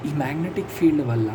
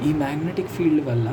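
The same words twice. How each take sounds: The two takes are said the same way.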